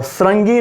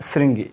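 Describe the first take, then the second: First: श्रृंगी said as "srangee", with a; wrong vowel. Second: श्रृंगी said lower as "sringee", with i; correct vowel. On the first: Teacher showing the mistaken word, srangee. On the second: Teacher correcting the word, sringee. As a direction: open श्रृंगी on a clear "sring". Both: Shown as a demonstration. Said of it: "श्रृंगी नहीं".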